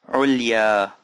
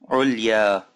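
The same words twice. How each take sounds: No difference in how they are said.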